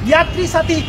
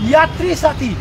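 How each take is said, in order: The two takes are said the same way.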